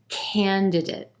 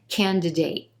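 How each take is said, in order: First: The last syllable has a weak, reduced vowel. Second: The last syllable has a full A vowel.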